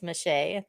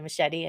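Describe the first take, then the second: First: The surname is said with a French-sounding pronunciation. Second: The surname is said like the English word machete. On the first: "I thought it was Michée, ... 'cause I've been studying French" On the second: "otherwise, I would have said Shelly Machete and imagined you hacking your way through the jungle"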